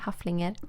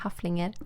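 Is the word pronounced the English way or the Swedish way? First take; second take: Swedish; Swedish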